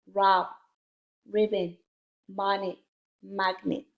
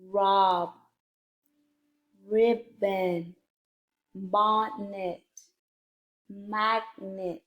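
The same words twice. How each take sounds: First: Brisker word-list reading, each word in one go; a little faster. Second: Careful, drawn-out word list; slow word reading. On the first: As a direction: read each word a bit faster, without splitting syllables. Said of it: "read the words a little bit faster". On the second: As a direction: read each word slowly, syllable by syllable. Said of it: "a little bit faster". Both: Shown as a demonstration.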